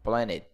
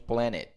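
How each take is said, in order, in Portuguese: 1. O som do t é omitido. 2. O som do t é omitido.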